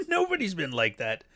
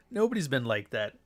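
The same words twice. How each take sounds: First: Laughing. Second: Said in the usual way. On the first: Real, not acted. Repite la frase riendo.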